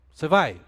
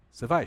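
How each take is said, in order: First: Asked louder with a falling end; a flat, ordinary asking of the question; plain question. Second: "Você vai?" asked with a rising, expectant end; hopeful rising question. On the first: Preacher demos a question that expects a no, asked plainly. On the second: Preacher demos a question that expects a yes, rising. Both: Shown as a demonstration. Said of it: "Depende do contexto da entonação".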